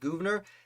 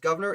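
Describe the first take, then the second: First: It is said as spelled, unlike the word governor. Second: It sounds just like the English word governor. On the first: This is how the name looks when written. "It looks like Gouverneur" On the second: This is how people usually say the name. "people say it's pronounced Governor"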